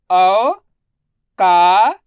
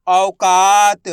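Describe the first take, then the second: First: Slow, spelled-out first syllable of औकात; drawn-out syllables. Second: Said in the usual way. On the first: Shown as a demonstration. (औकात को धीरे-धीरे खींचकर) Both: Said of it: "दा म उ की मात्रा दो".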